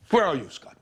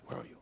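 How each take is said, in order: First: Said in the usual way. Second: The words "Where are you?" said almost inaudibly, far softer; near-silent call. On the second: Acted. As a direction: let "Where are you?" barely leave the lips. Searching for the absent Scott.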